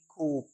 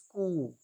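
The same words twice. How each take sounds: First: कूप with the P sounded; "koop", closed on P in कूप; wrong pronunciation. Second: कूप said "koo"; silent P. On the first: (कूप में पी बोलकर गलत उच्चारण) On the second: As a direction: end कूप on a long open "oo". (कूप में पी चुप, "कू") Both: Shown as a demonstration. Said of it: "न कि कूप".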